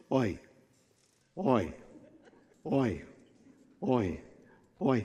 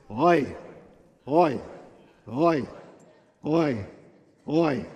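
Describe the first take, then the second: First: Low, soft oi on each step; evenly spaced weary groans under a load; groaning log carriers. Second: Fuller, heartfelt groaned oi; oi with feeling. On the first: Acted. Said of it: "as they carry them down". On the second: Shown as a demonstration. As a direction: groan each oi with feeling, evenly spaced. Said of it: "say it with feeling".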